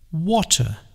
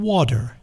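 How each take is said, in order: First: It is said the British English way. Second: It is said the American English way. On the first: "The English say water" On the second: "or U S English water"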